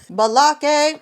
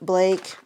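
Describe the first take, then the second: First: The name has an extra vowel after the B. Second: The name is said as one syllable. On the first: It imitates a comedy character's pronunciation. "pronouncing it like Balake" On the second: It is the ordinary pronunciation of the name. "I'm just going to say Blake"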